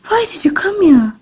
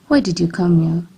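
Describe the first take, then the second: First: The line is spoken in a frightened tone. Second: The line is spoken in a bitter tone. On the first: "This shows a frightened tone of voice" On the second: "This shows a bitter tone of voice"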